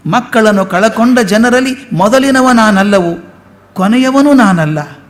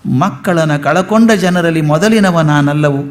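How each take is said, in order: First: Lifted, sung-out verse reading; poem recitation. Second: Said in the usual way. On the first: Shown as a demonstration. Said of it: "recited take of the line". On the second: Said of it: "first reading of the line".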